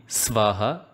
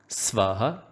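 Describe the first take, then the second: No difference in how they are said.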